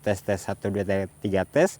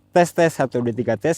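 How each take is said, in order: First: Background noise is slightly reduced behind the voice. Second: Background noise is moderately reduced behind the voice. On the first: "kalau pakai noise reduction di level satu" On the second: "menggunakan noise reduction di level medium"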